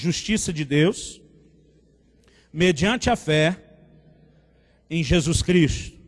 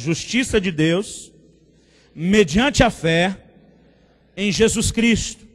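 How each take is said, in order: First: It is said at normal volume. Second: It is said loudly and forcefully.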